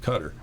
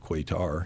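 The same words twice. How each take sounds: First: It uses the current, more native-like pronunciation of Qatar. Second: It uses the older, anglicized pronunciation of Qatar. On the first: This is how people learned to say it later. The speaker calls it right. "you start to pick up on the, the right pronunciation" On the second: This is how it was said before people knew better. The speaker calls it wrong. "back then we didn't know it better. It was Qatar"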